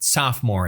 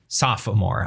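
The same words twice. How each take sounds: First: The middle vowel is dropped, giving two syllables. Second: The middle vowel is said, giving three syllables.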